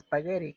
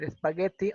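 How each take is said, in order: First: The middle consonant sounds like a quick R. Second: The middle consonant is a clear T sound. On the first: It follows English pronunciation rules. "la doble T del spaghetti um, está bien que, que, suene como R" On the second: It keeps the word's original non-English pronunciation. "tendríamos que respetar que es espagueti"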